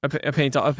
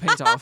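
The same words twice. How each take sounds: First: Said in the usual way. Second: Put-on high, rising English accent. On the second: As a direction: echo it in a posh English accent. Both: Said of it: "Who's doing the English accents now?".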